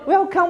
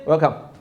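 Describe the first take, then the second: First: It sounds warm and smiling. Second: It sounds cold and menacing.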